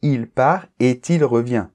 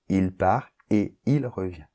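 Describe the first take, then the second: First: The t of part is linked to et. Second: Part and et are said without linking. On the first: The speaker calls it wrong. "Il ne faut surtout pas dire" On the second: The speaker calls it right. "il n'y a pas de liaison"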